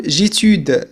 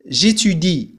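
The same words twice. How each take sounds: First: "جيتود" ending on d, the i dropped; mock mistake, cut "جيتود" off after the d; wrong pronunciation. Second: "جيتودي" ending on a clear i; correct pronunciation. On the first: Teacher warning students about a frequent error. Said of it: "ولا نقول جيتود". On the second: Teacher giving students the correct form of j'étudie. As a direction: finish "جيتودي" with the i sound. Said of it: "لكن الصحيح هو". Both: Shown as a demonstration.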